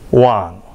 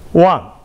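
First: The pitch dips low, then rises. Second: The pitch falls sharply from high to low.

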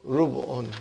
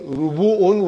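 First: The middle two consonants are joined without a vowel. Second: A vowel separates the middle two consonants. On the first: "we say Rubu'un" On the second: "Instead of saying Rubu'un"

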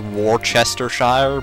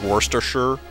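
First: Every written syllable of the word is sounded out. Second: Several written syllables are dropped from the word. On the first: The speaker calls it wrong. "It's like spelled Worcestershire" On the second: The speaker calls it right. "but it's like pronounced like Worcestershire"

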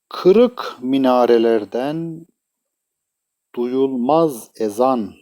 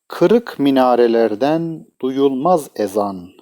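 First: The line is read at a normal pace. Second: The line is read at a fast pace.

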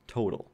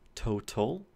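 First: The middle consonant is a quick flap. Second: The middle consonant is a clear T. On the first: This is how an American speaker says it. "So in my dialect of English, that is a flap" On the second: This is how a British speaker says it. "If you're a British English speaker, you would say total"

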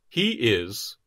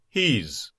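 First: It is said as two full words. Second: It is contracted with a final z sound.

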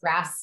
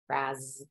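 First: The word ends with a hissing s sound. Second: The word ends with a buzzing z sound. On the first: The speaker calls it wrong. "doesn't sound as cool" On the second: The speaker calls it right. "it kind of sounds fun to say it with a Z"

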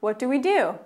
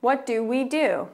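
First: It is said at a faster pace. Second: It is said at a slower pace.

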